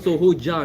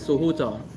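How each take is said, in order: First: The last syllable starts with an English j sound. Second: The last syllable starts with a z-like sound. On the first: The speaker calls it wrong. "it's not Soho Ja, no, it's not J A" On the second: The speaker calls it right. "The sound is closer to, to Z A"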